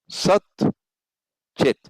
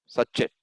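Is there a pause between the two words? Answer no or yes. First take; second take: yes; no. First: There is a pause between the two words. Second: The two words run together without a gap. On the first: The words are kept apart, so no sound joining happens. "If you rest" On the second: The words are joined, so the sounds merge. "Say it quickly. No gap"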